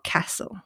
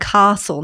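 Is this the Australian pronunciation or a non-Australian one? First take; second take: non-Australian; Australian. First: It is pronounced a non-Australian way. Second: It is pronounced the Australian way. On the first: "not castle" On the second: "and castle"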